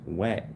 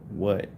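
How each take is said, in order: First: The vowel sounds like an 'ah' sound. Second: The vowel sounds like an 'uh' sound. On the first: The speaker calls it right. "it really should be pronounced wat" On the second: The speaker calls it wrong. "They they pronounce it what"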